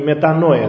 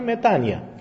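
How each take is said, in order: First: The middle vowel is said as 'oy'. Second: The middle vowel is said as 'ee'.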